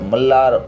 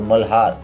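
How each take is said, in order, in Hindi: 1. बीच में दोहरी 'l' ध्वनि है। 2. बीच में एक 'l' और फिर एक 'h' ध्वनि है। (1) "मल्लार और मल्हार" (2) "मल्लार और मल्हार"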